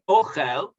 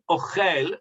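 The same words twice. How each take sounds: First: The stress is on the first syllable. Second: The stress is on the last syllable. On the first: It is the noun meaning food. The speaker calls it right. "with the stress on the o, that's the correct word" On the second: It is a verb meaning eating. The speaker calls it wrong. "like you said it, it's a verb"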